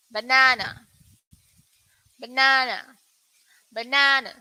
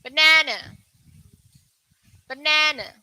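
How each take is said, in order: First: Banana with a long open "ah" in the middle, bə-NAH-nə; British pronunciation. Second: Banana with a flat "a" in the middle, bə-NA-na like "nanny"; American pronunciation. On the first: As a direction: model the British banana for learners. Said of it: "this one is for U K". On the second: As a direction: model the American banana for learners. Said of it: "For U S, it's different". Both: Shown as a demonstration.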